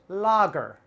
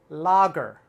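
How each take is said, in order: Both takes have the same delivery.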